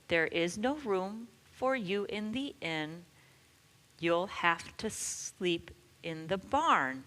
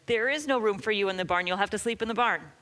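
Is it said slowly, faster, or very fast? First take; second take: faster; very fast. First: It is said a little faster. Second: It is said as fast as possible.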